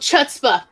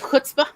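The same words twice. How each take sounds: First: The word is said with an outsider's mispronunciation. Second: The word is said with standard Yiddish pronunciation. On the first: This is how the drama group said it. The speaker calls it wrong. "they mispronounced everything" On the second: This is how the word should be said. The speaker calls it right. "instead of"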